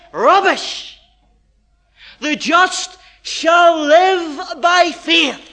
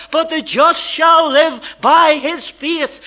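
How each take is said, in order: First: Slow, louder, dismissive "Rubbish"; Paul's rebuttal. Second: Slow, louder verse proclaimed; preaching climax. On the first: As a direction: thunder it back as Paul, slowly. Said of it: "And Paul says". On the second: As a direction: proclaim the verse slowly at full force. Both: Acted.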